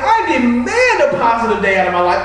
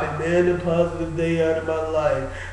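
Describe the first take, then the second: First: It is said with lively, energetic enthusiasm. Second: It is said flatly, without energy. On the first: The speaker fully commits to the demand. The speaker calls it right. "wake up with enthusiasm" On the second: The speaker is not really committed to it. The speaker calls it wrong. "some people say, well"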